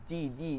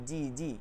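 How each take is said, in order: The two takes are said the same way.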